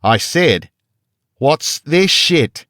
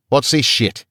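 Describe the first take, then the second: First: Slow, loud, much higher "what's this shit?", stretched with a hard fall on "this"; guard losing patience, far louder, in an Australian accent; raised voice. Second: Australian guard snaps "What's this shit?" loud and high, falling on "this"; Australian guard demanding an answer, loud; angry demand. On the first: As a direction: bellow each word slowly in an Australian accent. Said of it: "He raised his voice". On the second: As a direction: demand it with menace. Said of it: "he demanded". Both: A narrator's reading.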